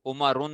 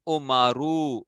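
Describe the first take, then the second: First: उमरुन closed off with an "un" sound; short final "u" plus "n" on उमरुन; wrong tanween ending. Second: उमरू with a long, drawn-out final "oo", no "n"; ending without tanween. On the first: Teacher warning children off tanween, उमरुन ending in "n". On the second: Teacher showing children the case reading, उमरू drawn out without tanween. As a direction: stretch the open ending of उमरू. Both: Shown as a demonstration. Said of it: "उमरुन ना पढ़ना".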